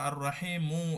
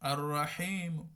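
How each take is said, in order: First: The final vowel is fully pronounced. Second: The final vowel is only faintly pronounced. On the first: "এটা ফুল উচ্চারণ তাহকিক" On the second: "হালকা"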